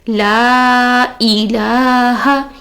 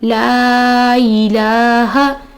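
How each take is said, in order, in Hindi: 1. एक साफ़ glottal stop दोनों शब्दों को अलग करता है। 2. स्वर बिना ग्लोटल स्टॉप के आपस में जुड़ जाते हैं। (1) "ई को अलग पढ़ना चाहिए" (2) "हम क्या पढ़ रहे हैं, लाई"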